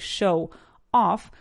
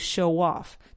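First: The two words are said separately, unlinked. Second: The two words are linked smoothly together. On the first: The speaker calls it wrong. "I don't say show off" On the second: The speaker calls it right. "I say show off"

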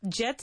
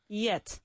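First: The word begins with a j sound. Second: The word begins with a y sound. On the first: The speaker calls it wrong. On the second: The speaker calls it right.

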